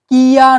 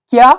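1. এটি দুটি আলাদা দলে উচ্চারিত হয়। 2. এটি একটি গড়ানো দলে উচ্চারিত হয়।

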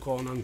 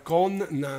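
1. La n in mezzo è corta, semplice. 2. La n in mezzo si tiene lunga, doppia. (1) "non Conan" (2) "c'è una N in mezzo, era Connan"

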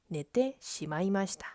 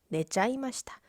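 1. 어미는 'te shimai'로 온전히 발음해요. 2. 어미는 짧은 'chai'로 줄여서 발음해요. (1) "아까 예문이죠" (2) "훨씬 친근하고 부드럽고 귀엽고 그런 뉘앙스예요"

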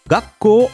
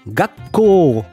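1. Le mot se dit sans la pause tenue ni le 'ko' long. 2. Un bref arrêt suit 'ga' et le 'ko' est allongé. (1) "je l'ai mal prononcé volontairement" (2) "Petite interruption sur la première syllabe et on prolonge le ko"

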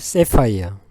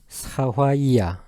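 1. 영어 소리로 발음해요, 예를 들면 sae-pai-eo처럼요. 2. 일본어 소리로 발음해요, 예를 들면 sa-fa-i-ya처럼요. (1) "영어에서는 세파이어" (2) "일본식 발음은 사화이야"

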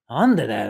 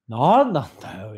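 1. 脅すような、威圧的な口調で言われている。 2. ゆったりのんびりした口調で、ふざけた感じで言われている。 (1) "って言うと怖いんだけど" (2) "ちょっとまったりさせると"

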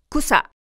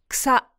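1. kの後の母音は強く、唇を丸めます。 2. kの後の母音は弱く、ほぼ無声です。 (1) "くと口を丸めて母音を強めに発音する" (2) "関東の人は…草のように発音することが多い"

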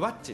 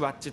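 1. 最初の音のあとで下がります。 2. 下がらず、平らなままです。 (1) "よくワッチって言われるんですけど" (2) "僕らメンバー5 人だけが必死でずっとワッチワッチと言い続けてる"

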